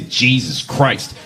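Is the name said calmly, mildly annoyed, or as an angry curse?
angry curse. It is said as an angry, exasperated curse. It takes the name in vain as a curse. "you go to hell forever. Just for saying it like that"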